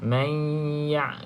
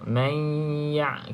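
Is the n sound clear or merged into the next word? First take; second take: merged; merged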